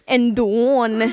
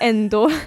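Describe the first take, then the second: First: The word ends with an added n sound. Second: The word ends with a plain vowel sound. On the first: "och ändån istället för ändå" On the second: "istället för ändå"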